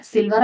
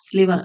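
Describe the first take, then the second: First: "Silver" with the l after the i, SIL-ver; "Silver", the mix-up to avoid, l second; wrong word contrast. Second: "sliver" with the l right after the s, SLI-ver; "sliver", the right one, s-l together up front; correct pronunciation. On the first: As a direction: say "Silver" as the ordinary metal word. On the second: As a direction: stress the sl cluster at the start of "sliver". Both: Shown as a demonstration. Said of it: "Silver അല്ല".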